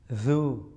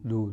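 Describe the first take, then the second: First: The consonant is a soft z-like sound. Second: The consonant is a hard d sound. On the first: The speaker calls it right. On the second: The speaker calls it wrong.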